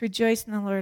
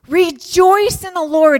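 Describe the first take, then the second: First: It is read flatly, without emphasis. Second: It is read emphatically, with joyful energy. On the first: The verse is recited routinely, as something familiar. The speaker calls it wrong. "sometimes we read it like this" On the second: The speaker truly feels joy and urges it. The speaker calls it right. "he's emphatic"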